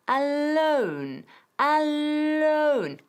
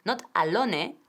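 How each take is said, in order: First: "alone" as a-LOUN, drawn out and rising; correct pronunciation. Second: "alone" said Spanish-style, a-LO-ne; wrong "alone" with a final e sounded; wrong pronunciation. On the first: Teacher gives the correct "alone", drawn out. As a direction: stretch "alone" clearly, a-LOUN. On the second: Teacher shows the mistake to avoid, Spanish-style. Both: Shown as a demonstration. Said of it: "Escucha la pronunciación".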